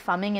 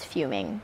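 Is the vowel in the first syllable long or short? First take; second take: short; long. First: The first vowel is a short 'uh' sound. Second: The first vowel is a long 'you' sound. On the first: The speaker calls it wrong. "I always say fumming and mispronounce it" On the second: The speaker calls it right. "I'm using that word"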